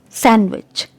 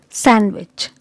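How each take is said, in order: Both takes have the same delivery.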